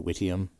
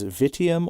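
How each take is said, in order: First: The word begins with a W sound. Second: The word begins with a V sound. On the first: "Mine was always the W, so I can't get away from the W, so I would say witium normally" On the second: "whether the V was pronounced as a V"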